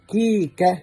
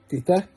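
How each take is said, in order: First: The consonants are k sounds. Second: The consonants are t sounds. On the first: The speaker calls it right. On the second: The speaker calls it wrong. "تيتا دي في البيت"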